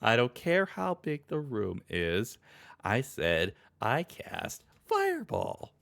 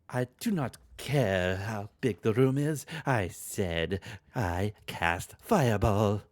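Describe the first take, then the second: First: It is said in the speaker's own voice. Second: It is said in a Francesca Von Karma voice.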